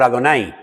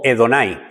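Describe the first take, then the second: First: "Adonai" opening on an a sound; accepted pronunciation. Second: "Edonai" opening on an e sound; alternative pronunciation. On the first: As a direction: say "Adonai" with an initial "ah". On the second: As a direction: say "Edonai" with an initial "eh". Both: Shown as a demonstration. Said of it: "que también está bien dicho".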